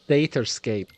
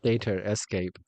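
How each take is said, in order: First: It is said as three syllables, 'data-scape'. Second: It is said with an extra 'e', 'data escape'. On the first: The speaker calls it right. "Datascape, not Data Escape" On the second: The speaker calls it wrong. "not Data Escape"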